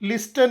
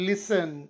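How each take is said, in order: First: A t sound is pronounced after the s. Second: No t sound is pronounced after the s. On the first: The speaker calls it wrong. "ಇದರ ಉಚ್ಚಾರ ಲಿಸ್ಟನ್ ಅಲ್ಲ" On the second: The speaker calls it right. "ಟಿ silent ಆಗಿರುತ್ತದೆ"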